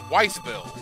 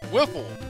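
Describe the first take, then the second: First: The name is said the way outsiders say it. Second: The name is said in a clipped local way. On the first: The speaker has never lived there. "everybody that I've ever heard that's never lived there... the first thing they say is Wytheville" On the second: The speaker is from there. "If you're from there, it's pronounced Whiffle"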